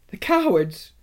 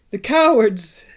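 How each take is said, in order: First: Higher, tearful outcry; sobbing. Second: High, louder tearful cry; sobbing. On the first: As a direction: choke out the insult. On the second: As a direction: let the grief break through. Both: A narrator's reading. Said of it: "sobbed Susan".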